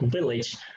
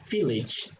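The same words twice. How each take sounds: First: The first sound is a voiced v. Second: The first sound is a voiceless f. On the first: The speaker calls it right. "So it actually pronounced like village" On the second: The speaker calls it wrong. "a lot of respondents who pronounce it as village"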